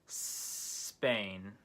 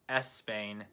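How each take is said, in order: First: The word starts with a long hissing s. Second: An extra vowel sound comes before the s. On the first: The speaker calls it right. "try making a s hissing sound before the word" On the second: The speaker calls it wrong. "instead of Espain"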